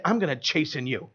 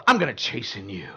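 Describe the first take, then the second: First: Low, soft, ominous threat; low soft threat to a stranger; menacing low line. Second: Much lower, soft, sinister threat; mock villain threat to a shopper; menacing deep voice. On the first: Pretend. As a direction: say it like a quiet menace. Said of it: "walk up to somebody and say". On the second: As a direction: growl it like a villain. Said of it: "walk up to somebody in the mall and go".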